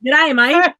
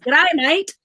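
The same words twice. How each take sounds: First: Loud, rising G'day, mate in an Australian twang; Australian accent. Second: Australian accent. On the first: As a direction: tries her best G'day, mate Aussie-style, mate rising at the end. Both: Shown as a demonstration. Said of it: "I need to practice that".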